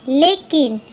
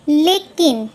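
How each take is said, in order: Both takes have the same delivery.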